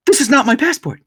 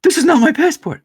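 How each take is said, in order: First: High, alarmed voice of the wife; wife starting to panic, pitched high; panicked wife. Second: Higher and louder, near shrieking; wife's panic peaking, high and loud; rising panic. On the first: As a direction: sound the first jolt of panic over the wrong passport. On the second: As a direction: repeat it more frantic, panic building. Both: Retold or imitated. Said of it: "all of a sudden she's like".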